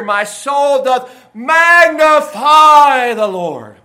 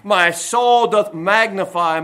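First: Booming, long-held "magnify"; swelling crescendo. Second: Said in the usual way. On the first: Shown as a demonstration. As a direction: proclaim it like a megaphone, stretched out very slowly. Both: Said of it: "that's the idea here".

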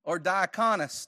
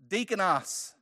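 First: Diakonos said with a dye sound at the start; diakonos, first syllable like die; other pronunciation. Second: Deakonos said with a long dee sound at the start; one pronunciation. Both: Shown as a demonstration. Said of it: "depending on how you want to pronounce it".

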